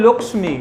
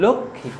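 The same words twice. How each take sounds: First: লক্ষ্মী with a clear ksh and m, "lokshmi"; Sanskrit pronunciation. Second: লক্ষ্মী as "lokkhi", the m dropped and kh doubled; Bengali pronunciation. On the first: Teacher shows students the Sanskrit লক্ষ্মী, sounding ksh and m. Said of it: "সংস্কৃততে এর উচ্চারণ হয়". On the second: Teacher shows students the Bengali লক্ষ্মী, quietly, as "lokkhi". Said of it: "বাংলাতে এর উচ্চারণ হলো লক্ষ্মী". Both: Shown as a demonstration.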